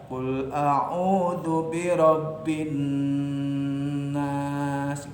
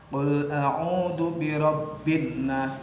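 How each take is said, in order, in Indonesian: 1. Huruf n ganda berdengung sengau selama tiga ketukan. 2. Huruf n ganda dibaca terpotong, tanpa dengung sengau. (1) "Kalau terukur dengan tiga" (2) "itu nggak ada khaisumnya"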